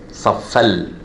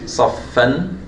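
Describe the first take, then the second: First: The n is merged into an l sound. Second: The word ends with a clear n sound. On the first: The speaker calls it right. "I'm saying saffal" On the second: The speaker calls it wrong. "instead of saying saffan"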